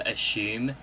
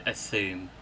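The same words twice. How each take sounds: First: "assume" said as "ashume", a sh sound in the middle. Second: "assume" said with a clear s, quieter and lower. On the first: Unsure how to say it, using own "ashume" pronunciation. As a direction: say "assume" with sh, not s. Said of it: "I don't know how you say it". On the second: Comparing with how others say it, soft clear s. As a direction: say "assume" with a plain s sound. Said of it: "I've heard loads of people say". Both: Shown as a demonstration.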